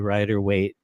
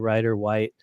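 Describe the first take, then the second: First: The second name rhymes with 'weight'. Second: The second name rhymes with 'white'. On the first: The speaker says it this way because of the spelling. "I just say Rider Waite because it looks like weight" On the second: Some other people say it this way.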